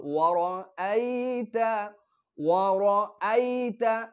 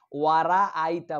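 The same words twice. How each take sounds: First: ওয়ারাআইতা slow and higher with a full heavy র; correct pronunciation. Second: ওয়ারাআইতা said with a long thin ওয়ারা, the common mistake; mispronounced ওয়ারাআইতা; wrong pronunciation. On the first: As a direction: recite ওয়ারাআইতা slowly, making the র full. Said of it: "এখানে রটা পোর হবে". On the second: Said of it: "বলে ফেলি". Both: Shown as a demonstration.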